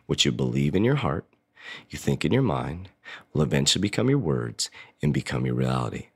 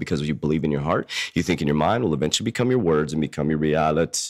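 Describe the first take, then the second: First: It is said slowly. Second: It is said at normal speed.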